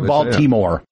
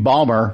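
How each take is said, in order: First: The name is said with all three syllables. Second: The name is squeezed into two short syllables. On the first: It sounds like a non-local speaker. "or Baltimore" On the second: It sounds like a local speaker. "Because that's how locals say it"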